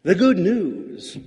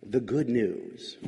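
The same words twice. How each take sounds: First: "The good news" said slowly and louder, with "good" punched high; emphatic. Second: "The good news" said low, soft and slow, without any emphasis; flat, quiet take. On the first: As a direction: proclaim "The good news" with strong stress on "good". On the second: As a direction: let "The good news" drop away quietly and plainly. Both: Shown as a demonstration. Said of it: "depends on how emphatically you say it".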